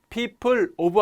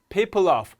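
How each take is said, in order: First: The two words are said separately. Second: The two words are linked together. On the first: "하지 않고" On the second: "덩어리 법칙 적용이 돼서요"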